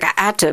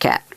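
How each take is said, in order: First: The sounds are separated with extra vowels added. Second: The word is said as one smooth syllable. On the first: "you come up with an extra uh, vowel" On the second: "you don't come up with cat"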